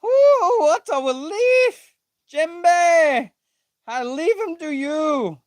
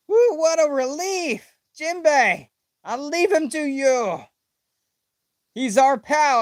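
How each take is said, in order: First: Very high, louder squeal of relief; overexcited read. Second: Toned-down high read. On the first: Reading a manga line with giddy high relief. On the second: Rereading the relief line a touch calmer. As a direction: still high but less squealy. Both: Acted. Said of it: "I don't know why I'm reading it like that".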